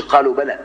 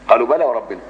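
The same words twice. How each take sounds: First: "قالوا بلى" cut off with a full stop after بلى; wrong stop after بلى. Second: "قالوا بلى وربنا" flowing straight from "بلى" into "وربنا"; joined, no stop. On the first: Teacher showing students the wrong stop at "بلى". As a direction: pause hard right after "بلى" as the wrong way. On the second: Teacher showing the right way, "بلى" joined to "وربنا". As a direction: link "بلى" to "وربنا" without a break. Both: Shown as a demonstration. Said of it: "ما تقولش".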